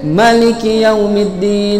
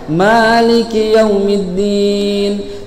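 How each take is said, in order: First: The vowel after the m is short. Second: The vowel after the m is held long. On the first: The word has one letter fewer. "ada bacaan yang pendek" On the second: The word has one more letter. "mimnya dibaca panjang"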